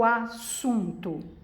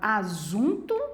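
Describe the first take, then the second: First: The middle consonant is a hissing s sound. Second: The middle consonant is a buzzing z sound. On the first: The speaker calls it right. "o som é de S" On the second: The speaker calls it wrong. "com som de Z"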